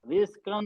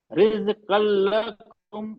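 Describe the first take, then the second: First: रिज़्क़न with the nun clearly sounded; the wrong way, nun pronounced; wrong unmerged reading. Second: रिज़्क़ल लकुम slow, nun fully merged into lam; merged lam recitation. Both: Shown as a demonstration. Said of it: "रिज़्क़न नहीं हो रहा है".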